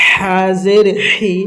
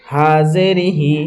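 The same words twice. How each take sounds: First: Slow হাজের হি with a strong throaty h; big haa. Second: Slow হাজের হি with a light h; thin sound. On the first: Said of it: "বড় হা". (হালাক থেকে মোটা হাজের হি) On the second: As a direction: keep হি easy, no throat friction. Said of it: "পাতলা আওয়াজে". (পাতলা আওয়াজে হাজের হি) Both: Shown as a demonstration.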